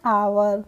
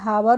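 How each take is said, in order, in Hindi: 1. इस शब्द की शुरुआत में 'h' की आवाज़ नहीं है। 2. इस शब्द की शुरुआत 'h' की आवाज़ से होती है। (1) "इसको पढ़ेंगे आवर" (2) "हावर नहीं पढ़ते हैं"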